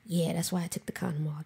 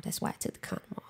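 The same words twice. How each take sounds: First: Said in the usual way. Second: Fast, breathless whisper of his words; whispered repeat. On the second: Retold or imitated. Echoing her partner's words to a friend, whispered. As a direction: let it slip out under your breath.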